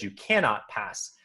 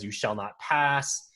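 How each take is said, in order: First: Lightly voiced Gandalf, slow, stress on cannot; a hint of Gandalf stating a fact, cannot leaned on; Gandalf statement. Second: Lightly voiced Gandalf, slow and commanding; a hint of the wizard's command, slowed right down; dramatic Gandalf. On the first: Comparing book wording for friends, understated slow Gandalf. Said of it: "slight wording change". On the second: Quoting the movie to podcast friends, mild slow Gandalf command. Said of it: "it's very dramatic".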